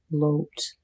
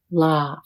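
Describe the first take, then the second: First: "lote" with a long oh vowel; hard O. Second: "lot" with an open ah vowel; soft O. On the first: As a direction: say "lote" with a rounded oh. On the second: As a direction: drop the jaw on "lot" for ah. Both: Shown as a demonstration. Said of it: "listen to the difference".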